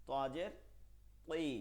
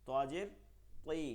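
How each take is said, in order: Both takes have the same delivery.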